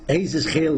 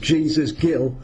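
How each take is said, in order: First: The name is pronounced the Spanish way. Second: The name is pronounced the English way. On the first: This is how people in Spain say it. "they say in Spain" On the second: This is how the speaker's own community says it. "we pronounce it as"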